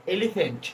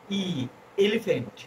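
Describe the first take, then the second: First: Said in the usual way. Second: ই, এলিফ্যান্ট drawn out slowly, each sound clear; slow teaching demo of এলিফ্যান্ট; slow model word. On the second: Shown as a demonstration. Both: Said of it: "আমি যেভাবে বলতেছি ঠিক তোমরা".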